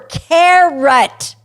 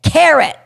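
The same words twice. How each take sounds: First: It is said slowly and drawn out. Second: It is said at normal loudness and speed.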